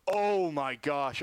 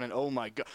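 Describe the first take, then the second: First: Slow, stunned oh my gosh; real horror at what he just saw; shocked gasp. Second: Said in the usual way. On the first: Real, not acted. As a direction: broadcaster reacting live to a bad injury. Sees a player badly hurt.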